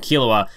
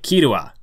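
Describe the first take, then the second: First: The name is said with an English L sound. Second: The name is said with a Japanese R sound. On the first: "I pronounced Killua two different ways" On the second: "trying to pronounce it more as, like, the, the Japanese way of saying it"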